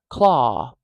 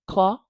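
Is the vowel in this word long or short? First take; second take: long; short. First: The vowel is stretched out noticeably longer. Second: The vowel is held for a normal, shorter time. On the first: "But if you stretch that out maybe fifty percent longer" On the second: "So it's okay if you say claw"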